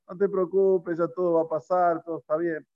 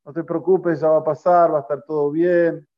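First: Easy, untroubled retold comfort; offhand reassurance. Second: Mild retold shout, a little louder; called-out reassurance. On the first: Comforting someone about another person's child, offhand and unworried. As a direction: brush it off as someone else's trouble. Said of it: "Pero cuando es del otro". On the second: Old woman reassuring the rabbi from a distance, mildly called out. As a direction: call out comfort as if from afar. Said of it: "y le gritaba a Rav Sholem".

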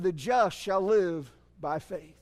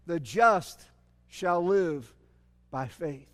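First: "The just shall live by faith" said slowly, "just" stressed; slow weighted quote. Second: "The just" and "shall live" separated by pauses, each word weighted; stress on each word. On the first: Preacher repeating the verse to the congregation, slow and deliberate. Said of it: "he said". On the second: Preacher spelling out God's word to the prophet, slow and weighted. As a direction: drop to a low "by faith". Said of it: "here's what God told him". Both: Shown as a demonstration.

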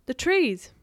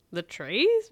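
First: TREES said high, falling at the end; insistent answer. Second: TREES rising into a question; mock-puzzled rise on TREES; incredulous echo. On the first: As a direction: point out the TREES firmly. Boy points out trees to friend. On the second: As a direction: echo it back, TREES lifted in doubt. Friend echoes in disbelief. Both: A narrator's reading.

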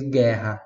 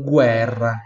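First: Guerra as "GHEH-ha"; Portuguese pronunciation. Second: Guerra as "GWEH-rra", firmly; Italian pronunciation. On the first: Teacher compares with Italian, guerra said the Portuguese way, no U. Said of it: "Em português". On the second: Teacher compares with Portuguese, guerra said the Italian way, with "gw". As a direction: sound the U and trill the R in guerra. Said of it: "Em italiano". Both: Shown as a demonstration.

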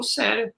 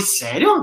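First: Said in the usual way. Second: A doubtful "Sério?" rising at the end; incredulous question. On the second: Retold or imitated. Doubting a mentor's promise, asking "Sério?" with a rising end. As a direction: ask "Sério?" in disbelief. Retold back-and-forth with Cláudio.

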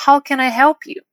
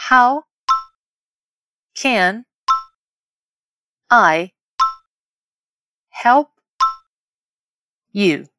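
First: Said in the usual way. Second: "How", "can", "I", "help", "you" each alone with long pauses; word by word. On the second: Shown as a demonstration. Teacher leading learners to repeat aloud, word by word. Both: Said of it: "Vamos repetir em voz alta?".

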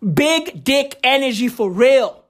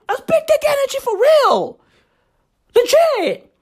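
First: Said in the usual way. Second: Squeaky-high, strained hammed-up praise; high-pitched hype. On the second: Host hyping Trump's energy to listeners, high-pitched hype. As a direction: send the whole line way up high. Hyped praise, then repeated normally.

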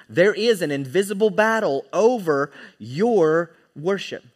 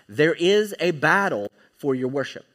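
First: "invisible battle" and "your" stressed in a firm, raised delivery; emphatic restatement. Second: Said in the usual way. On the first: Real, not acted. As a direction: drive home "invisible battle over your worship" word by word. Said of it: "let me say that again". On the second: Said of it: "here's the key point".

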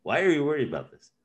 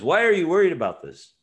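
First: Death asking again. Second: Death asking. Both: Retold or imitated. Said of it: "Death asks".

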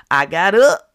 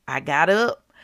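First: I got up, said much louder; loud declaration. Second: Said in the usual way. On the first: Real, not acted. Telling listeners she rose from bed, loud and triumphant. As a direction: proclaim it with triumph.

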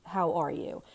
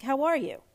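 First: Lower, gentle, sincere question; heartfelt check-in. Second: Higher-pitched, automatic greeting; breezy stock pleasantry; insincere. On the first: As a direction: ask as if you truly want to know. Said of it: "if you ask more sincerely". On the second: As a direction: ask it as a habit, not meaning it. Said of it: "insincere pattern". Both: Shown as a demonstration.

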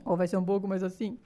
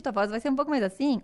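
First: A lower, darker take of the same sentence; lower voice demo. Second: Said in the usual way. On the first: Shown as a demonstration. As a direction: show a second, lower kind of voice.

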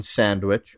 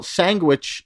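First: Said in the usual way. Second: "sandwich" said slowly as "sangwich"; deliberate mispronunciation. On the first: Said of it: "is a play on sandwich". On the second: Shown as a demonstration. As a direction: say "sandwich" with ng for nd: sang-wich. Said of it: "Or mispronouncing that word".

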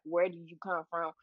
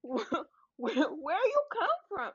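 First: Said in the usual way. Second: Mock incredulous. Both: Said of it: "that's also a toxic trait of asking".

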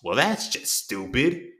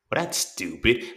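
First: Very slow, drawn-out sneer; drawn-out condescending sneer. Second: Slow, dismissive put-down; slow sneering put-down; condescending. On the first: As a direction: make them feel small with it. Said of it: "say it in such a way". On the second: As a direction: talk down to the child. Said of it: "in such a condescending way". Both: Retold or imitated.

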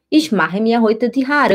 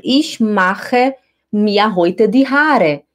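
First: Said in the usual way. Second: Each word drawn out slowly; slow demo take. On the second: Shown as a demonstration. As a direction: stretch the sentence out for learners. (devagar, palavra por palavra) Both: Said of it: "Por exemplo".

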